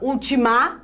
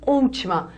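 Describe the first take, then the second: First: The stress is on the last syllable. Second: The stress is on the first syllable. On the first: The speaker calls it wrong. "Ninguém fala ultimar" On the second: The speaker calls it right. "todos falamos última. Então, esta é a sílaba tônica"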